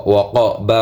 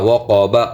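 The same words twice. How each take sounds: The two takes are said the same way.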